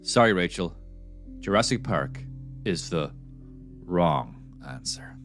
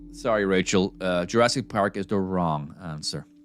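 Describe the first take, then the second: First: It is said dramatically, with more drama. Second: It is said plainly, without drama.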